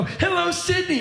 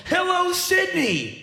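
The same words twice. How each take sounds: First: High arena hello; rock star greeting. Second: High, drawn-out arena hello; rock star greeting. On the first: Comedian mocking the rock-star greeting to his audience. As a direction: call it out like a big rock act. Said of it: "if I go". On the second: Comedian mocking a rock-star greeting to his small audience. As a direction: greet the crowd like a stadium star. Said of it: "if I went". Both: Pretend.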